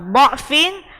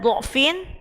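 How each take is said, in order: First: The first vowel is an 'a' sound. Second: The first vowel is a 'u' sound. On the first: "jika dibaca fathah, maka fathah semua" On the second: "jika dibaca dhammah, dhammah semua"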